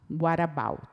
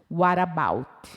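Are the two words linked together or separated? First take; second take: linked; linked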